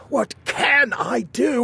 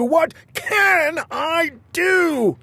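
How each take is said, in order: First: High, slow anguished cry; wringing his hands; despairing king. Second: Even higher, very slow falling wail; the despair spills over; wailing king. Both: Acted.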